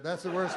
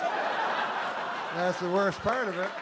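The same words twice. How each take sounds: First: Said in the usual way. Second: "worst part" dragged out slowly, each word leaned on; slowed-down laughing emphasis on "worst part"; slow stress on worst part. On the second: Shown as a demonstration. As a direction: lean hard on "worst part" and take it slow.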